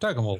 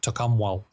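First: The name is said in the local way. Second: The name is said the way it is spelled. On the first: This is how people in the area say it. The speaker calls it right. "around here we pronounce it Tokemul" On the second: This is how the written name suggests it sounds. The speaker calls it wrong. "it looks like Tokumwal"

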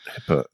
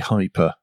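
First: The first syllable sounds like 'hip'. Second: The first syllable sounds like 'high'. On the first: The speaker calls it wrong. "Because I was pronouncing it hipper" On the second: The speaker calls it right. "it does seem to be hyper, as in high performance"

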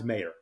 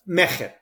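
First: There is no guttural sound in the middle. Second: The middle consonant is a guttural throat sound. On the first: This is a simplified version for English-speaking audiences. "it all of a sudden becomes Mayor" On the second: This is the original pronunciation of the name. "Phonetically accurate is Mejer. It's a guttural sound"

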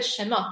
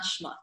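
First: A short vowel separates the sh and m. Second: The sh and m run together without a vowel. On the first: The speaker calls it right. "it's Sefer Shemot" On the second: The speaker calls it wrong. "it's not Shmot"

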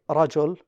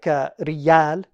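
First: The middle consonant sounds like j. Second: The middle consonant sounds like a strong y. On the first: This is the standard form. "They don't say rajul" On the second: This is the eastern Arabian dialect form. "they say like riyal"

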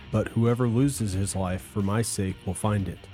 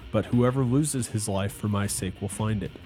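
Both takes have the same delivery.

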